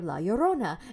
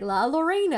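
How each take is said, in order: First: The double L sounds like a Y. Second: The double L sounds like a plain L. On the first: The speaker calls it right. "he pronounced it correctly" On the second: The speaker calls it wrong. "you're not even trying"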